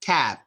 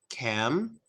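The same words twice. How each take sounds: First: "cab" ending in a lip stop, no hum; sung, shut the lips on the B of "cab". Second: Soft, low "cam" with a hummed M; slight vibration. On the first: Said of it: "there's no humming". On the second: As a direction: hum lightly on the end of "cam". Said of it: "a little bit of vibration". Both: Shown as a demonstration.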